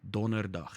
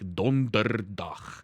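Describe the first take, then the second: First: The second d sound is left out. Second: The second d sound is clearly pronounced. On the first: This is the relaxed everyday way to say it. "you don't have to pronounce the second D. It's basically Donderdag" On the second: This is the overly careful way to say it. "If you want to be freaking pedantic"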